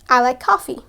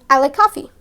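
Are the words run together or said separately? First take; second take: run together; run together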